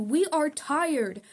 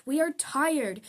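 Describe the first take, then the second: First: Louder, slow and drawn-out protest chant; chanted, lead the crowd, slow and full-throated; slow rally chant. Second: Louder, higher protest cry; rally shout. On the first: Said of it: "Let me hear you". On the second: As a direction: call it out to the crowd. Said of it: "take my hand and shout". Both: Acted.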